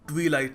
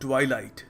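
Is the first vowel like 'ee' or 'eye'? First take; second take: ee; eye. First: The first vowel sounds like 'ee'. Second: The first vowel sounds like 'eye'. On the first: The speaker calls it wrong. "ये ट्वीलाइट नहीं है" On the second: The speaker calls it right. "It is ट्वाइलाइट"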